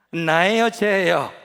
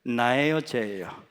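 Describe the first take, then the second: First: Louder, pressing demand. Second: Said in the usual way. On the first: Retold or imitated. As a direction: insist on an answer from God. Repeated demanding God. (크게 다그치며 묻기)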